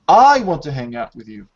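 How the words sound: The stress falls on the word I. The speaker personally wants to hang out. "you're putting stress on this subject"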